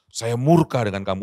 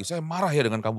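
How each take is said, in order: First: Louder, stressed murka. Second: Said in the usual way. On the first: Shown as a demonstration. Preacher contrasts marah and murka, stressing murka. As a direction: say "murka" with more weight and force. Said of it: "itu lebih daripada marah". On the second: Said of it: "bukan begitu".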